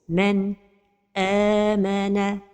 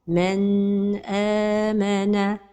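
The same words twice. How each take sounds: First: The voice stops briefly right after the n. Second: The n sound is held noticeably long. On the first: "c'est la pause" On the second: "c'est de prolonger son temps"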